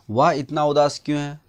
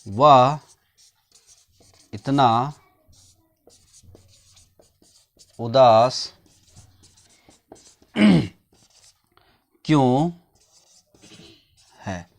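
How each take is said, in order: First: Said in the usual way. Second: Louder, word by word with long pauses; slow, spaced classroom dictation. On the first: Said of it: "same sentence said normally". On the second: Shown as a demonstration. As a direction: spell it out slowly for the class. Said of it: "teacher dictates sentence word by word".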